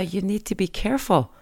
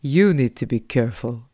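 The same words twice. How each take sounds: First: Said in the usual way. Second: Lower, blank echo of the warning; parroting driver. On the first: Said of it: "jeg sa". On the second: Retold or imitated. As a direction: mimic the driver repeating it dumbly. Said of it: "Og han bare".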